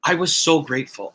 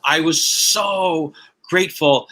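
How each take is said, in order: First: Said in the usual way. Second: "so" stretched out and leaned on, slowly; slow down and lean into "so grateful"; slow heartfelt emphasis. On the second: Shown as a demonstration.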